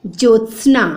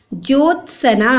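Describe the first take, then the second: First: "ज्योत्सना" as jyots-na; no vowel after s in "ज्योत्सना"; correct pronunciation. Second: "ज्योत्सना" as jyot-sa-na; slow three-part "ज्योत्सना"; wrong pronunciation. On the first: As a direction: join s straight to n in "ज्योत्सना". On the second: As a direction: insert a between s and n in "ज्योत्सना". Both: Shown as a demonstration. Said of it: "जबकि क्या होता है".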